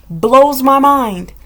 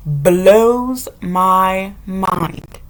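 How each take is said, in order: First: Said in the usual way. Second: Very slow, drawn-out disbelief. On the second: Real, not acted. Repeating her shock about hygiene, very slow. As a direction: stretch every word out.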